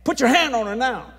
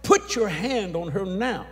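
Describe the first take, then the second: First: Loud, high hollered order; hollered command. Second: Slow, louder commanding order; firm command. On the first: Preacher to father Ken, full hollered command. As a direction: shout it across to make him obey. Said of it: "I hollered at Ken". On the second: Preacher to father Ken, slow firm command. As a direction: insist slowly, each word weighed. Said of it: "I said". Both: Retold or imitated.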